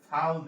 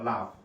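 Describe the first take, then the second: First: The word starts with f and ends with l. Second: The word starts with l and ends with f. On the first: This is how people casually distort the word. The speaker calls it wrong. "আমি বলি কি ফাল দে" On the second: This is the standard form of the word. The speaker calls it right. "সঠিক শব্দ হচ্ছে লাভ"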